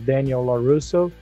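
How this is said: The name is said with English pronunciation.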